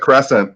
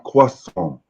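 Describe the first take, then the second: First: It is said with an American Midwestern accent. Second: It is said with a French accent. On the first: The speaker is plainly American. The speaker calls it right. "I'm from Michigan" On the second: The speaker is showing off knowledge of French. The speaker calls it wrong. "she would have to pronounce it with a French accent"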